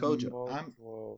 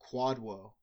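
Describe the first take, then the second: First: The name begins with a k sound and has a j. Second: The name begins with a kw sound and has a d. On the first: The speaker calls it right. "It's Kojo" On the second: The speaker calls it wrong. "We pronounce it Quadwo. But apparently, we were wrong"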